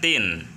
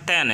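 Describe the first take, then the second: First: The vowel is a closer 'ih' sound. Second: The vowel is an open 'eh' sound. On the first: The speaker calls it wrong. "bukan tin" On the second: The speaker calls it right. "Ingat dibacanya ten ya"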